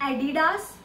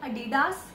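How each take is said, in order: Both takes have the same delivery.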